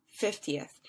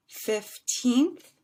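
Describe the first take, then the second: First: "fiftieth" with FIF first, quick falling "ti-eth"; short-ending fiftieth. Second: Put-on "fifteenth" rising high and loud on a long "teenth"; long stressed TEENTH. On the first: Teacher repeating the contrast, "fiftieth" with short falling ending. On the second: Teacher repeating the contrast, "fifteenth" with loud long teenth. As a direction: stretch and lift the end of "fifteenth". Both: Shown as a demonstration. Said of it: "a little bit longer".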